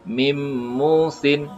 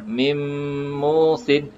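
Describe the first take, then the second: First: It is said without a held nasal hum. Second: It is said with a longer held nasal hum. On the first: "Kalau tanpa dengung dia akan jadi" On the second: "Dengan dengung"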